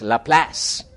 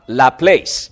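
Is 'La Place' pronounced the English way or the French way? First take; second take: French; English. First: It is pronounced with a French-style pronunciation. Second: It is pronounced with an English-style pronunciation. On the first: The speaker calls it right. "I used to be a French high school teacher, so I know how to pronounce the word" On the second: The speaker calls it wrong. "It's not La Place"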